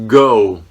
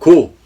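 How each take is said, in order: First: The first consonant is said soft and held back. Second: The first consonant is said strong and tense. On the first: "영어에서는 go" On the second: "한국 사람들은 못 먹어도 고"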